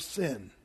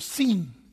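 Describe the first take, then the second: First: The word is said with an English pronunciation. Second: The word is said with a Hebrew pronunciation. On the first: "they don't pronounce the word sin like that" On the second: "It's actually the wilderness of sin, as they'd say"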